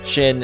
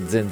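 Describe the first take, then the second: First: The word begins with a 'sh' sound. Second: The word does not begin with a 'sh' sound. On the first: The speaker calls it right. "it actually is supposed to be pronounced Shin for the X" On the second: The speaker calls it wrong. "I've always pronounced it Xin Zhao"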